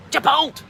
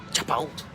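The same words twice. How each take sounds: First: High, loud scolding of oneself; shouted self-reproach. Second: Said in the usual way. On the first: Acted. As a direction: yell it at yourself as if caught red-handed. (se crier dessus, aigu et fort)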